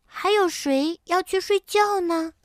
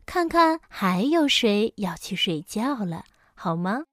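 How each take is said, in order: First: High-pitched, curious cub voice; wide-eyed child's question, pitched up high; curious little bear. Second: Easy mother bear voice at usual pitch; a mother coaxing her child along. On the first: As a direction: ask like a small child full of wonder. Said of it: "好奇地问". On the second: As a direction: suggest it gently to your cub. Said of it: "熊妈妈笑了". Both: A narrator's reading.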